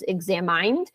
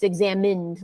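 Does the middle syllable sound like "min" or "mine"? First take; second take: mine; min. First: The middle syllable sounds like "mine". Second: The middle syllable sounds like "min". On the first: The speaker calls it wrong. "because it has the word mine in it, it might be tempting to try to pronounce it as examined" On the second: The speaker calls it right. "it's examined. Like like I guess you say the word M I N like minute"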